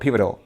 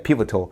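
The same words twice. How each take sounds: First: American accent with a softened, flapped T sound. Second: British accent with a clearly pronounced T sound. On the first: "In American English, we have a pivotal" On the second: "The British English or the British English like articulates the T there"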